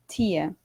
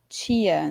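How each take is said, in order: First: The t is a plain, crisp t sound. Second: The t sounds like ch before the i. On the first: "mais parecido com alguns sotaques que nós temos no interior, ou mesmo no sul do Brasil" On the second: "principalmente aqui em São Paulo, a gente tem a mania de falar muito tia"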